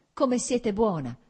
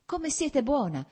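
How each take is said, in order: First: Slow and louder, higher, weight on come; moved exclamation. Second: Slow and much higher, each word drawn out; moved exclamation. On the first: Kitty exclaims again to Varinka, louder and slow. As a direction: come siete buona!, louder and slow, stress on come. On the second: Kitty exclaims to Varinka, moved and slow. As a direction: Come siete buona, slow, high, stress on siete. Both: A narrator's reading. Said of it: "esclamò Kitty".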